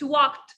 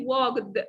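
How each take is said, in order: First: The ending is a plain t sound. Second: The ending is not a plain t sound. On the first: The speaker calls it right. "it's walked, t, t, t sound" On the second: The speaker calls it wrong. "we don't say walked"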